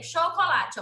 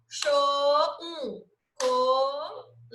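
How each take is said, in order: First: Said in the usual way. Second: "Cho-, co-la-te" drawn out slowly, one syllable at a time; split into syllables. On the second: Shown as a demonstration. Teacher showing pupils how to separate syllables, split slowly. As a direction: pause after each syllable of "co-la-te". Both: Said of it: "Você ia separar a sílaba da palavra".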